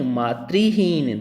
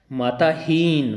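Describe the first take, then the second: First: मातृहीन said slowly as maa-tri-heen; slow model of मातृहीन; teacher stresses the right मातृहीन; correct form. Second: माताहीन said slowly as the mistake; slow demo of the error माताहीन; wrong form shown. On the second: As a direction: show the wrong word माताहीन. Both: Shown as a demonstration. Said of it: "माताहीन नहीं".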